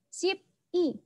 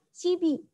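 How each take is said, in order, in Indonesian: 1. Kedua suku kata diucapkan terpisah. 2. Kedua suku kata disambung menjadi satu kata.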